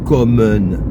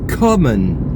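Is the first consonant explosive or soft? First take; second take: soft; explosive. First: The first k is soft with no burst. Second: The first k has a strong explosive burst. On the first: The speaker calls it wrong. "On ne dit pas kommen, parce que là, nous aurions le son doux du français" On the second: The speaker calls it right. "en allemand, la consonne est plosive"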